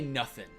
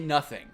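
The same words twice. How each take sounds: First: It ends in a clipped 'nothin' without the g. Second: It ends with a full 'ing' sound. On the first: This is how the game's characters talk. The speaker calls it wrong. "I don't say nothing" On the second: This is how the speaker talks. The speaker calls it right. "I say nothing"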